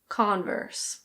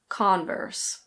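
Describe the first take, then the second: First: The R is pronounced, with an American vowel. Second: The R is pronounced, with an American vowel.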